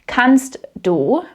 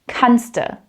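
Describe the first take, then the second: First: The two words are said separately in full. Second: The two words merge into one word.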